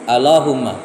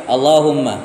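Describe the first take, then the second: Both takes have the same delivery.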